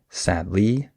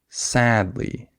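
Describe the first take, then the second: First: The stress is on the second syllable. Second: The stress is on the first syllable. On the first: The speaker calls it wrong. "I don't say sadly" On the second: The speaker calls it right. "I would have emphasis on sad, not on ly"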